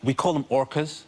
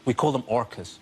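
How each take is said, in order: First: "call" leaned on, rising; "call" stressed, question lift. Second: "call" stressed, falling firmly; "call" hit and dropped. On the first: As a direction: lean into "call" with a rising tune. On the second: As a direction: land "call" with a falling tune. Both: Shown as a demonstration.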